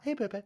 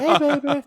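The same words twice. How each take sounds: First: Soft pet greeting. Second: Loud, high call; loud hey baby. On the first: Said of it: "I always call her baby". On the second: Boyfriend hailing the dog past a stranger, loud and high. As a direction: belt out the greeting across the street. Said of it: "dead loud". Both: Retold or imitated.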